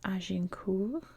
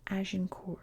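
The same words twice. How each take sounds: First: The name is pronounced the French way. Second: The name is pronounced the English way. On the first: "in French that's Agincourt" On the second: "in English I've heard this Agincourt"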